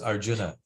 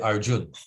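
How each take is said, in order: First: The word ends with the final vowel sounded. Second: The word ends without the final vowel. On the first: The speaker calls it right. "the A needs to be pronounced" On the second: The speaker calls it wrong. "they completely drop the A on the end"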